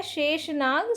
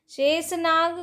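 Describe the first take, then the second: First: शेषनाग said as "sheshnag"; correct pronunciation. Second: शेषनाग said as "shesnag"; wrong pronunciation. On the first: Teacher giving students the right form, शेषनाग as "sheshnag". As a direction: keep sh twice in शेषनाग. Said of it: "सही है". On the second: Teacher showing students the error, शेषनाग as "shesnag". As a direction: make the second sibilant of शेषनाग a plain s. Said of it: "गलत है". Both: Shown as a demonstration.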